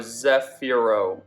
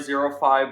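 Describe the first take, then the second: First: The name sounds like one word, zefiro. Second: The name sounds like the words zero five. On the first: The speaker calls it right. "It's spelled Z E F I R O, so Zefiro" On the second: The speaker calls it wrong. "I think I was saying Zero Five"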